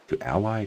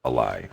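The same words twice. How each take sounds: First: "ally" stressed on the first syllable, AL-eye. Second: "ally" stressed on the second syllable, uh-LIE. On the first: Host weighing verb pronunciation says "ally" as AL-eye. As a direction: say "ally" as AL-lie with an open a. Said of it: "if I use it as a verb form". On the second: Host gives his own usage: "ally" as uh-LIE. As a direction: say "ally" with a weak first vowel, uh-LIE. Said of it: "I tend to say". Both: Shown as a demonstration.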